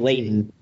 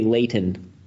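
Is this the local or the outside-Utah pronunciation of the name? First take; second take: local; outside. First: The name is said the way town locals say it. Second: The name is said the way other Utahns say it. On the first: The speaker is from the town itself. "If you're from Leighton, then you say Leighton" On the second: The speaker is from elsewhere in the region. "If you're from anywhere Utah. Else, then you say Leighton"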